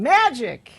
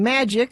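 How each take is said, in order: First: The word is said excitedly. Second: The word is said flatly.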